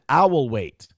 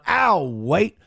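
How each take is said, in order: First: Each word is said fully and separately. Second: The first two words are contracted together. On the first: "That's a good way to pronounce it" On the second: "Instead of going"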